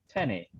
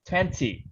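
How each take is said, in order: First: The t after the n is dropped. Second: The t after the n is pronounced. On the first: The speaker calls it wrong. "Like the American, they say tenny" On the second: The speaker calls it right. "the proper pr- pronunciation of that word is twenty"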